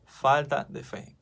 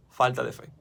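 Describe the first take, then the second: First: "Falta de fe" slowed right down, each word weighed; slow emphatic repeat. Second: Said in the usual way. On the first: Shown as a demonstration. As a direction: drive it home slowly, word by word. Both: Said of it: "Hombres de poca fe".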